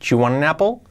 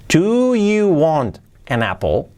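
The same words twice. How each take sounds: First: It is said fast, with 'do you' blended. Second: It is said at a normal pace.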